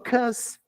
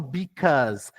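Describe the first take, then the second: First: The first syllable is dropped from the word. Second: The word is said in full with its first syllable. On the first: "eles engolem" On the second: "eles não falam because"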